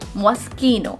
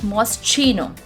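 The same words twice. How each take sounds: First: The middle consonant is a 'k' sound. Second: The middle consonant is a 'ch' sound. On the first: The speaker calls it right. "The sound of C H becomes K. So the word is, the correct pronunciation is Moschino" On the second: The speaker calls it wrong. "The sound of C H in this word is not pronounced as Ch. It's not Moschino"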